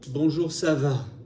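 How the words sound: The voice falls at the end. "tu vois que ma voix baisse"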